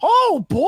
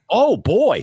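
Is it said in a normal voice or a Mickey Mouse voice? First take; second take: Mickey Mouse; normal voice. First: It is said in a Mickey Mouse voice. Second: It is said in his normal voice.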